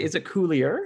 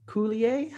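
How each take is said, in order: First: Coulier with an English "-er" ending, rising as a question; "Coulier" like "Cool-ee-er", asking; English-style Coulier. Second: Coulier said the French way, ending in "ay", with a questioning rise; "Coulier" like "Cool-ee-ay", rising as a question; French-style Coulier. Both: Shown as a demonstration. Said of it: "I was gonna say".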